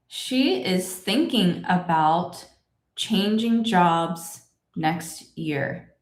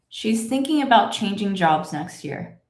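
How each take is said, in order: First: The sentence is read slowly with full forms. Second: The sentence is read at natural speed, contracted. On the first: "Let's say it together" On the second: "And here's my normal speed"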